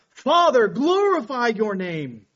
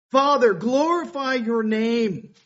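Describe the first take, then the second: First: High, loud cry on Father, then slow; desperate cry to the Father, stronger still. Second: Slow, loud and raised; a first, slower call to the Father; loud preached plea. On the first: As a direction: cry out to heaven. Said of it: "Jesus just cries out". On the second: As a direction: proclaim it slowly to the crowd. Quoting Jesus' plea, preached. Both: Acted.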